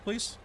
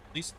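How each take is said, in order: First: High, soft mock pleading. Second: Said in the usual way. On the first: Real, not acted. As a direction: beg the cat sweetly for the mouse. Begging the cat.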